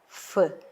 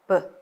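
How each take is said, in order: First: It starts with an f sound. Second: It starts with a p sound. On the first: The letter has no dagesh dot. "jika tanpa dagesh dibaca menjadi fe" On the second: The letter carries a dagesh dot. "ini juga dibaca pe"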